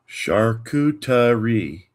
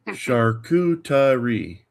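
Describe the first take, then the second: The two takes are said the same way.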